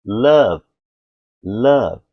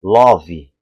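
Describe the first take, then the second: First: Love with a short throaty A, no final E; love said "lav", the E dropped; the English way; native love. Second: Love with an open O; love said "lóvi" with a trailing i; reading the spelling in Portuguese; Brazilian way. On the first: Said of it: "o E caiu". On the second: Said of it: "O brasileiro vê aqui e fala". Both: Shown as a demonstration.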